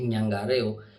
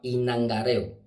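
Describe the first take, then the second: First: The word begins with an 'ny' sound. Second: The word begins with an 'i' vowel. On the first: This is the common street form. The speaker calls it wrong. "El término usado vulgarmente en la calle es ñangareo. Eso está mal" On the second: This is the proper form of the term. The speaker calls it right. "Se llama inangareo"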